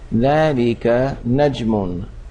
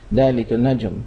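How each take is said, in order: First: The last word keeps its full vowel ending. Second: The last word's vowel ending is dropped. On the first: This is the careful form for learners. "to use the long form" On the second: This is how it is said in everyday speech. "in normal speaking"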